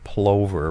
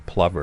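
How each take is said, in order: First: The word is said the beginner's way. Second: The word is said the birder's way. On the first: The speaker sounds like a newcomer to birding. The speaker calls it wrong. "the beginner's uh, mistake of saying plover" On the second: The speaker sounds like an experienced birder. The speaker calls it right. "rather than plover"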